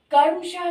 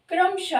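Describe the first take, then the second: First: कर्मशः with the r after क, like करमशः; wrong pronunciation. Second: क्रमशः with a tight क्र onset; correct pronunciation. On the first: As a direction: swap the r to after the vowel in कर्मशः. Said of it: "कर्मशः नहीं". (कर्मशः का गलत उच्चारण) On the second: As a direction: join क and र at the start of क्रमशः. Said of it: "क्रमशः होता है". (क्रमशः का सही उच्चारण, क्र जोड़कर) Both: Shown as a demonstration.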